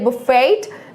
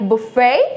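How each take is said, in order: First: The word ends with a clear t sound. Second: The word ends without a t sound. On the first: The speaker calls it wrong. "We are not going to से" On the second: The speaker calls it right. "Like it will be silent"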